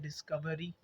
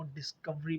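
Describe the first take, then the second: First: डिस्कवरी as dis-ku-vuh-ree; four syllables in डिस्कवरी, schwa kept; full form. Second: डिस्कवरी as dis-kuv-ree; schwa dropped. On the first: (डिस्कवरी पूरा: डिस-क-व-री) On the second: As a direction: cut the vowel between v and r in डिस्कवरी. (डिस्कवरी छोटा करके: डिस-कव-री) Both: Shown as a demonstration. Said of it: "हमने उसको short करा".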